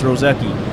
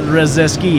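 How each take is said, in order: First: No s sound comes before the k. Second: An s sound comes before the k. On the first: The speaker calls it right. "it's Roseki" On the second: The speaker calls it wrong. "Not Roseski"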